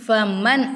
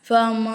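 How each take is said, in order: First: The n sound is pronounced fully and clearly. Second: The n sound is hidden through the nose. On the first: The speaker calls it wrong. "ஃபமன் அப்படின்னு சொல்லக்கூடாது" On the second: The speaker calls it right. "ஃபமா அப்படின்னு சொல்லணும். அதாவது நம்ம வந்து நூனே சாக்கினை மூக்கால மறைச்சி ஓதணும்"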